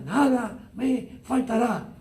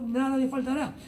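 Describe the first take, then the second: First: "Nada me faltará" slow, every word weighted, stress on "Nada"; said with emphasis. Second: Said in the usual way. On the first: Shown as a demonstration. Pastor to congregation, proclaiming the psalm with confident emphasis. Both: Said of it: "Lo decimos con mucho énfasis".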